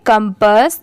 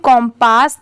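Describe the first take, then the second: First: The first vowel is a short 'uh' sound. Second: The first vowel is an open 'o' sound. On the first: The speaker calls it right. "इसे हम क्या pronounce करेंगे कंपस" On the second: The speaker calls it wrong. "यहाँ पर इसकी pronunciation कॉम्पास नहीं होगा"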